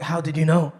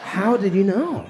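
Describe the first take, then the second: First: Said in the usual way. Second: Slow, laughing accusation; mock suspicious. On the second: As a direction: drag it out, half laughing, suspicious. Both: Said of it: "I'm like".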